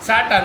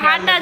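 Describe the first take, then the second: First: The word begins with an s sound. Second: The word begins with an h sound. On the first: This is the standard form. "આપણે સાટા કહી" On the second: This is the local dialect form. "અમાર કાઠિયાવાડી ભાષામાં બાજુ મોરબેલા હાટા"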